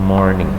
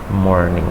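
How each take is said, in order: No difference in how they are said.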